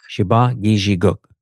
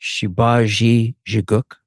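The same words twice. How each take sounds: First: "Shiba Giji Guk" as shee-bah gee-zhee-gook; careful correct pronunciation. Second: Slow, questioning "Shibagi Jiguk", with zhee for gee; tentative pronunciation attempt. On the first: Host finally gets "Shiba Giji Guk", careful pronunciation. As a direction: repeat "Shiba Giji Guk" carefully, without a questioning rise. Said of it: "sort of get it right". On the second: Host attempts guest's name "Shibagi Jiguk", tentative pronunciation. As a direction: try out "Shibagi Jiguk" slowly, rising on Shibagi. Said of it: "took me a long time". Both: Real, not acted.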